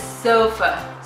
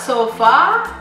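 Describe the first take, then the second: First: The final vowel is a weak uh sound. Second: The final vowel is a full, clear a. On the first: The speaker calls it right. "it's sofa" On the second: The speaker calls it wrong. "It's not sofa"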